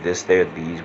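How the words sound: The th sounds are said normally.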